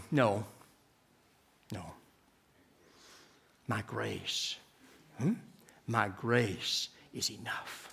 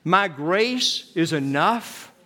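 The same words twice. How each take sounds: First: God's gentle answer. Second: Each word drawn out slowly, led for all to repeat; slow congregational recitation. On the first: Retold or imitated. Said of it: "And three times God said". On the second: Shown as a demonstration. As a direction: say it slowly together with the people. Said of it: "Could you say that with me?".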